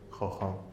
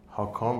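First: The word begins with a harsh kh sound. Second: The word begins with a soft h sound. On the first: This is the Hebrew pronunciation. "ولی این تلفظ عبریشه" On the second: This is the original root form of the word. "اگر بخوایم اصل کلمه رو بگیم"

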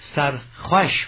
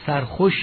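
First: The vowel in khosh sounds between o and a. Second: The vowel in khosh is a plain o. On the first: The speaker calls it right. "بین تلفظ خوش و خش" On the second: The speaker calls it wrong. "اینجا سرخوش نخوانیم"

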